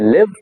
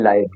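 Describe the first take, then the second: First: The vowel is a short i sound. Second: The vowel is a long ai diphthong. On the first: "ये है लिव" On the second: "ये है लाइव"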